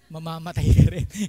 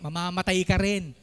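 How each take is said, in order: First: It is said in a sarcastic, resentful tone. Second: It is said in a plain, sincere tone.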